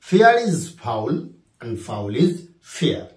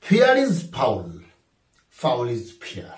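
First: Drawn-out repeat of the example; slow dictation repeated. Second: Drawn-out reading of the example; slow dictation. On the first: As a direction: say the example once more slowly. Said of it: "কি?". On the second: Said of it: "number sixteen". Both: Shown as a demonstration.

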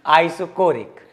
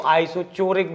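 First: आइसोकोरिक said with a hard K, as in core; hard K pronunciation. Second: आइसोचोरिक said with a CH as in chore; CH pronunciation variant. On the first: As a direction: pronounce आइसोकोरिक as eye-so-KO-rik. (आइसोकोरिक में 'क' का उच्चारण) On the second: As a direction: pronounce आइसोचोरिक as eye-so-CHO-rik. (आइसोचोरिक में 'च' का उच्चारण) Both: Shown as a demonstration. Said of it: "कुछ लोग इसको आइसोचोरिक भी बोलते हैं".

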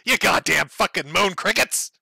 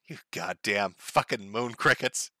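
First: Mock yelled insult. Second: Low, soft, slow, no venom at all; flat trial read. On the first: Klansman yelling from a car at men on the corner, mock yell. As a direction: lean out the car window and yell it, hammed-up. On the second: Trying out the slur quietly, a flat, slow test read. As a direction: test the insult quietly with no anger behind it. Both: Shown as a demonstration. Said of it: "get angry and then scream that".

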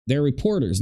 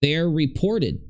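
First: "reporters" clearly ending in -ers; correct reporters. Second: "reported" with a -ted ending, as Betty misheard it; mispronounced reported. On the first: Commentator correcting to the right word, "reporters". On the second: Commentator mocking the mishearing, saying "reported". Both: Shown as a demonstration. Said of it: "not reported".

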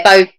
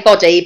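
First: Bodie with a long o, bow-dee; long-o pronunciation. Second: Boddy with a short o, like body; short-o pronunciation. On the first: Guest accepting the other surname version, long-o Bodie. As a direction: say Bodie with the first vowel long. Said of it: "however you wanna pronounce it". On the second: Guest giving her own surname, short-o Boddy. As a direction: say Boddy with the first vowel short. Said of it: "I say Boddy". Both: Shown as a demonstration.

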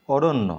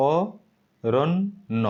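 First: Said in the usual way. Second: অরণ্য drawn out very slowly, syllable by syllable; slow syllable split. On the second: Shown as a demonstration. Teacher slowly sounding out অরণ্য. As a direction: stretch অরণ্য to show its parts. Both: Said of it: "অরণ্যকে তুমি যদি ভাঙো".

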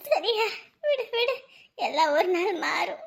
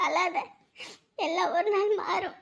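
First: Slow comfort. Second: Soft consolation, falling on நாள்; soft comfort. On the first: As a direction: reassure her slowly. Friend consoling again. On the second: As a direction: gently soothe her. Friend consoling crying wife. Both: Acted.

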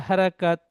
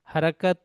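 No difference in how they are said.

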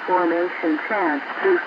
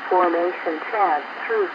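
The two takes are said the same way.

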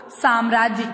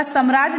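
First: "साम्राज्य" opening on a long "saam"; correct pronunciation. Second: "साम्राज्य" opening on a short "sam"; wrong pronunciation. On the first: Teacher answering what it is, correctly pronounced. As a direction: stretch the first a of "साम्राज्य". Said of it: "क्या होता है बच्चों?". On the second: Teacher telling what it isn't, mispronounced. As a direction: keep the first a of "साम्राज्य" short. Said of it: "नहीं होता". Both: Shown as a demonstration.

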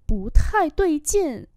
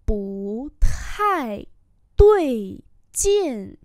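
First: Said in the usual way. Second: Slow, stretched syllables; slow model reading. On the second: Shown as a demonstration. Teacher repeating a phrase for learners, slowly. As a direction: hold out each tone.

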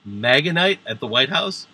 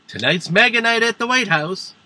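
First: MAGA NIGHT echoed with a questioning rise at the end; incredulous echo question. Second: High-pitched, hyped-up announcement; mock Trump announcement. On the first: Acted. Comic questions the quote back. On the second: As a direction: announce it like a thrilled party host, pitched way up. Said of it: "Trump said".

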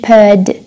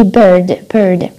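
First: "bird" with no R, long schwa; British bird. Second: "bird" with the R pronounced after the vowel; American bird. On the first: Teacher contrasting with American, R-less British "bird". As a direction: drop the R in "bird", British style. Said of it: "مش bird as a British". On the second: Teacher demonstrating American usage, R sounded in "bird". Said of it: "في الأمريكي". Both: Shown as a demonstration.

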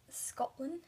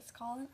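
First: Put-on shitty Scottish accent. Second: Said in the usual way. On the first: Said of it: "my shitty attempt at a Scotland". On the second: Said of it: "That was my shitty attempt".

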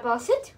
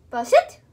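First: Said in the usual way. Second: Louder, higher, firm SIT; firm command. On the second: Real, not acted. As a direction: raise it to make her listen. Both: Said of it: "repeated command louder".

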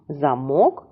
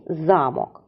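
First: "Замок" stressed on -мок with a rising end; stress on second syllable. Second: "замок" stressed on за-, falling after; stress on first syllable. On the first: Teacher summing up the pair, stress on second syllable. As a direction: say "Замок" as za-MOK. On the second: Teacher summing up the pair, stress on first syllable. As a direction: say "замок" as ZA-mok. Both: Shown as a demonstration. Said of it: "але наголос змінив".

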